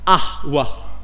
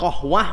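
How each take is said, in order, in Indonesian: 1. Kata ini diawali dengan hentian glotis. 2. Kata ini diawali dengan bunyi k.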